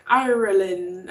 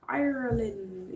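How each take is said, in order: First: Slow, drawn-out Irish-accented "Ireland". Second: Slow, soft Irish-accented "Ireland". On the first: Greeting a viewer from Ireland, slow Irish accent. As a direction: say "Ireland" slowly the way an Irish person would. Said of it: "I have to say it with an accent". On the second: Greeting a viewer from Ireland, soft slow Irish accent. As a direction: draw out "Ireland" in a light Irish lilt. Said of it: "You can't just say Ireland regular". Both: Shown as a demonstration.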